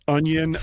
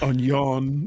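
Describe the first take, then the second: First: Said in the usual way. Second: "onion" as French un-YON; French-style onion. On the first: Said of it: "No, no, that's French". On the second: Shown as a demonstration. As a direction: say "onion" the French way, stress on a nasal last syllable. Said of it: "that's French".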